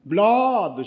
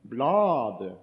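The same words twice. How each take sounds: First: Loud, high jeering shout of "Bladet"; "Bladet" shouted out high and loud, falling at the end; crowd shout. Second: Said in the usual way. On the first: Retold or imitated. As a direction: yell "Bladet" like a whole bus jeering. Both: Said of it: "Så roper de ut alle sammen".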